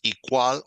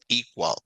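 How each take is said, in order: First: The stress is on the second syllable. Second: The stress is on the first syllable. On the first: The speaker calls it wrong. "No decimos" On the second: The speaker calls it right. "las otras la llevan al principio"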